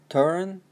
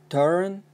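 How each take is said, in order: No difference in how they are said.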